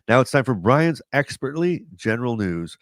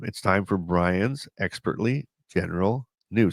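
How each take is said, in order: First: It is said faster and louder. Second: It is said quietly and slowly.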